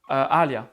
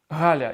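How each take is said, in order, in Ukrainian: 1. Ім'я починається одразу з голосної. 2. Ім'я починається з дзвінкого звука h. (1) "я казав завжди я казав Аля" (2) "Я не міг казати Галя"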